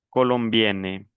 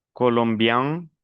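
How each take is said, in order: First: "colombienne" slowly, onto a clear n; non-nasal ending. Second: "colombian" rising to a nasal vowel; nasal ending. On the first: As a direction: sound the n in "colombienne". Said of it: "el segundo no es nasal". ("colombienne" con la n clara) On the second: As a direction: end "colombian" through the nose. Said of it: "las dos últimas son nasales". ("colombian" con final nasal) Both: Shown as a demonstration.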